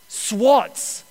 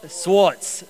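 First: Swats said with a short ah vowel instead of sways; misreading "swats" as a rhyme of "watts"; tripping over "swats" on a misread word; mispronounced. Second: "Swats." said slowly as an unknown word, aw vowel; puzzling over "Swats." aloud; questioning "Swats."; puzzled repeat. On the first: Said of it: "a hundred percent incorrectly pronounced that". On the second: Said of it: "What does that word even mean?". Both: Real, not acted.

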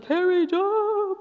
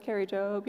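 First: High, drawn-out fanfare of a name; stretched, soaring announcer-style hype; grand star billing. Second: Said in the usual way. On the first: Shown as a demonstration. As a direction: sing out the name like a big star. Star name versus ordinary name.

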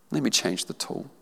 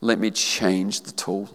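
First: Soft quiet repeat; hushed tender echo. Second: Lower, slow and soft; tender divine voice. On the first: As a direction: let the line settle gently. Repeating the Lord's words. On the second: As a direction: speak as a gentle father. The Lord's words first take. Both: Acted.

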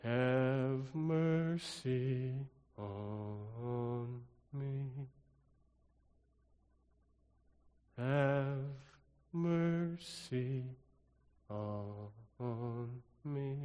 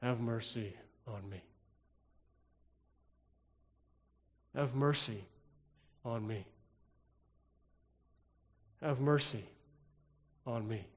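First: Very slow, soft, stretched Have mercy; drawn-out plea. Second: Soft pleas in steady beats, a pause after each; drumbeat cadence. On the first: Pastor to congregation, another way to pray it, very slow soft plea. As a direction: stretch every word out, much softer. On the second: Pastor to congregation, showing the drum's cadence, soft rhythmic plea. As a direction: let each Have mercy fall like a drum beat. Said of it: "Do you hear the cadence?". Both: Shown as a demonstration.

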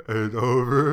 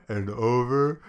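The two takes are said the same way.

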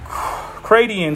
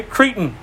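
First: Cratein said as three syllables, CRAY-dee-in; unsure first pronunciation. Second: Cretan in two syllables, CREE-tn; corrected pronunciation. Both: Shown as a demonstration. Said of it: "make sure I'm pronouncing this right".

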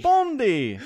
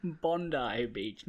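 First: Bondi shouted high, ending in a short ee; hammed-up Bondi with a quick ee ending; mock Aussie. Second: Bondi said as BON-dye, slow, Aussie way; Australian pronunciation. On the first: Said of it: "that sounds more Aussie". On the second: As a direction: say Bondi as BON-dye, long final vowel. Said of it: "not Bondi". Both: Shown as a demonstration.

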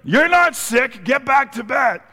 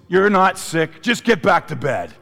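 First: Hammed-up mom, much higher and slow; mom insisting. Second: A hint of a mom's voice, higher and louder; lightly voiced mother sending the kid back to bed; mom brushing it off. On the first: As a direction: repeat the mother's dismissal, drawn out and high. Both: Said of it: "My mom looks at me and goes".

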